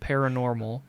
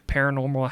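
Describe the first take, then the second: First: The word is said slowly and carefully. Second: The word is said quickly and rushed. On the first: "I can say it if I slow down" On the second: "Say it fast"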